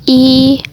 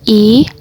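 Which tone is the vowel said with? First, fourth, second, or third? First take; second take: first; second. First: The vowel carries the first tone. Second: The vowel carries the second tone. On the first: "Nada pertama" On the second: "nada kedua"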